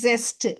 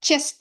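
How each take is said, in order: First: The word begins with a z sound. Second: The word begins with a ch sound. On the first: The speaker calls it right. "அது ரெண்டுக்கும் நடுவுல is ஜெஸ்ட்" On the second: The speaker calls it wrong. "செஸ்ட் இல்ல"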